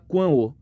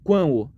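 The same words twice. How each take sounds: Both takes have the same delivery.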